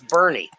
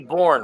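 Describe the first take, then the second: First: The name is said as two syllables. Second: The name is said as one syllable. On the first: The speaker calls it right. "No, that's Bernie" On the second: The speaker calls it wrong. "Should be Born, right?"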